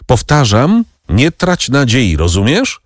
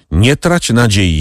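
First: Exclaiming. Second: Said in the usual way. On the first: A narrator's reading. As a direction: press him hard, raising the voice. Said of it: "zawołał Monte Cristo".

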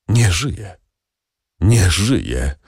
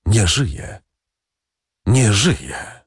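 First: Sighed out in hopeless despair, a touch breathy at the edges. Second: Repeated like a faint distant echo, falling at the end; hollow echo. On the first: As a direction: let the words fall out in grief, half-sighed. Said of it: "westchnął Villefort w paroksyzmie rozpaczy". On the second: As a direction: let it sound like an echo of the first voice. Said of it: "niczym echo, drugi głos mówiący". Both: A narrator's reading.

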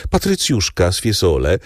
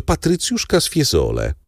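First: Said in the usual way. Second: "patrycjuszka" lifted high on the repeat; proud repeat. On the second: A narrator's reading. Major insists to the count on his noble bride, pitch lifted on "patrycjuszka".

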